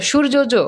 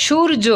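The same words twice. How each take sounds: First: সূর্য জ said as shur-jo-jo; সূর্য জ with an extra jo tacked on; wrongly doubled J. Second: সূর্য said as shur-jo, J sounded once; high, clear সূর্য with one final jo; single J. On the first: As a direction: repeat the final jo in সূর্য জ. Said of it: "এরকম কিন্তু বলো না". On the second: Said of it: "একবার উচ্চারণ হয়েছে নাকি দুইবার". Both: Shown as a demonstration.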